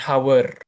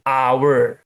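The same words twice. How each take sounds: First: "hour" with the H sounded, like "hawer"; wrong pronunciation. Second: "Hour" starting on an open "ah", like "our"; silent H. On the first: Teacher showing how not to read it, "hour" with a voiced-out H. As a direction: mispronounce "hour" with an audible initial H. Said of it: "Cara bacanya gimana? Bukan hour". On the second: Teacher modelling the right reading, "Hour" with silent H. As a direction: drop the H in "Hour", louder for the class. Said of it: "H-nya huruf mati". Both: Shown as a demonstration.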